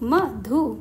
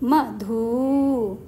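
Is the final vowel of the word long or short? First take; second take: short; long. First: The final vowel is short. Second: The final vowel is long. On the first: The speaker calls it right. "धा में छोटे ऊ की मात्रा" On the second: The speaker calls it wrong. "यदि इसमें बड़े ऊ की मात्रा होती तो हम इसे कैसे बोलते?"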